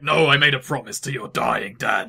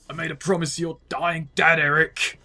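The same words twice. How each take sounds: First: Hammed-up cliche movie line; louder, mock-dramatic protest; mock melodrama. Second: Lightly put-on grizzled old man; Terry. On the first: Mocking a cliche deathbed-promise line, hammed-up. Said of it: "kind of cliche, like". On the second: Second try at the impression for co-commentators, lightly put-on voice. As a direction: attempt a grizzled game character, slightly raised. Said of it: "pulling off Terry's voice".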